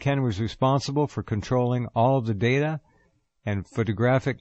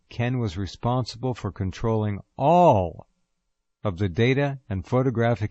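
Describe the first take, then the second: First: The word all is not especially stressed. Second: The word all is strongly stressed.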